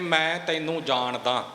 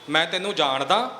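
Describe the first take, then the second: First: It is said as a plain, neutral statement. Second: It is said in a doubtful, questioning way. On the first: The speaker simply knows the listener. "ਇਹ ਅਰਥ ਆਪਾਂ ਸਾਰੇ ਸਮਝ ਸਕਦੇ ਹਾਂ" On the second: The speaker doubts they know each other at all. "ਇਹ ਇੱਕ ਸ਼ੰਕੇ ਵਾਲੀ ਗੱਲ ਆ ਗਈ"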